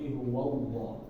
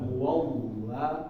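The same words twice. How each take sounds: First: The L in Allah sounds thick and heavy. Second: The L in Allah sounds thin and light. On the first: The speaker calls it right. "tapi huwallah ya" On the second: The speaker calls it wrong. "jadi bukan huwallah"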